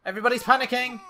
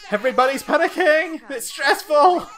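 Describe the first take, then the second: First: High, loud, tense commentary; playful panic. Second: Very high, very loud, comic hysteria; panicked shouting. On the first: Gamer narrating the household in a panic, mildly frantic. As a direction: report the chaos with rising alarm. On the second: Gamer shouting that everybody's panicking, comic hysteria. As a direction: yell it at the peak of the chaos. Chaos in the game peaks. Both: Pretend.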